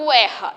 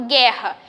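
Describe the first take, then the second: First: "guerra" with the u wrongly sounded, gwe-rra; U pronunciado. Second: Said in the usual way. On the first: Shown as a demonstration. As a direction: say "guerra" as "gu-erra", voicing a w after g. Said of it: "Eu não falo guerra". ("guerra" com o u pronunciado, gü-erra) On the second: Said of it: "eu falo guerra".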